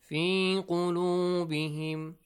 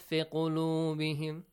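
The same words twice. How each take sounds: First: The vowel in 'fi' is held long. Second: The vowel in 'fi' is cut short. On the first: The speaker calls it right. "We have harf al-mad" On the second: The speaker calls it wrong.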